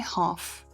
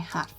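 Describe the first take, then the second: First: It is said with a British accent. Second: It is said with an American accent. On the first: "the British say half" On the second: "Americans say half"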